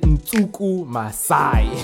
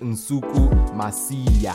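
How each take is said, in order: First: The surname ends with an 'eye' sound. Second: The surname ends with an 'ee-ah' sound. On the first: The speaker calls it wrong. "I said Nsuku Masai. I apologize for that mispronunciation" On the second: The speaker calls it right. "That's how you say it"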